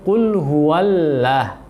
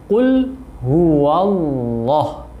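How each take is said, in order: First: The word Allah is pronounced thin and light. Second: The word Allah is pronounced heavy and thick. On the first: The speaker calls it wrong. "Tidak menebalkan lafaz Allah di sini, maka akan e, terbaca dengan tipis" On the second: The speaker calls it right. "itu yang benar"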